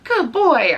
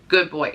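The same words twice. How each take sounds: First: The voice is lively and varied in pitch. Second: The voice is flat and level in pitch. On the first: The speaker calls it wrong. "I can't sit there and tell him" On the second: The speaker calls it right. "like flat tone"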